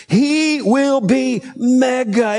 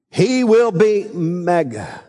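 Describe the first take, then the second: First: Slow, raised, ringing he will be mega; big stress on mega. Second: Slow, weighty he will be mega; drawn out, emphatic declaration; stress on mega. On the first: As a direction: proclaim it slowly and higher. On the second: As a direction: lean on each word, slowly. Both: Shown as a demonstration. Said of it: "it's mega".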